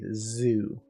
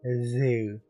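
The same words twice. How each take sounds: First: The z is made with the teeth closed. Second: The z is made with the teeth apart. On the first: The speaker calls it right. "You have to close your teeth" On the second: The speaker calls it wrong. "you can't really go zoo"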